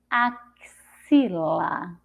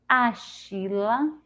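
First: The x is pronounced as a ks sound. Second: The x is pronounced as an sh sound. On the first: "Com som de Ceci" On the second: "com som de C H"

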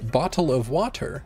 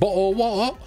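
First: It is said in an American accent. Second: It is said in a Cockney accent.

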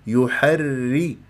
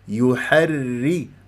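No difference in how they are said.

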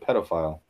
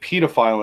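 First: It is pronounced the American way. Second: It is pronounced the British way. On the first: The speaker calls it right. "instead of pedophile" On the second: The speaker calls it wrong. "They also say pedophile"

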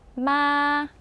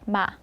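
First: The syllable is high and held long. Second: The syllable is short at ordinary pitch. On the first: "높고 길게 해서 마 이렇게" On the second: "그냥 이렇게 발음하면 되는데"

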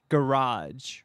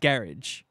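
First: The word is said with an American pronunciation. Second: The word is said with a New Zealand pronunciation. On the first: "Americans would say garage" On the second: "That's the New Zealand way to say it"

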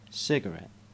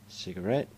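First: The stress falls on the first syllable. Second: The stress falls on the last syllable. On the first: This is the American way of saying it. "An American would put the stresses in a completely different place" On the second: This is the British English way of saying it. "In English, that's where we put the stress in these particular words"

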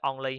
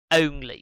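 First: The first vowel is a short o sound. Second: The first vowel is a gliding diphthong. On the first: The speaker calls it wrong. "chứ only ha, sai á" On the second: The speaker calls it right. "Âm ơ u chứ không phải là chữ on, trong chữ on ngắn đâu"

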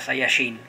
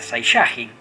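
First: The stress is on the last syllable. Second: The stress is on the second-to-last syllable. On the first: "con la acentuación en la I, que era una palabra aguda" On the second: "era la segunda sílaba contando desde atrás para que sea grave"

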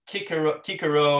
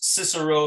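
First: The name begins with a hard K sound. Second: The name begins with a soft S sound.

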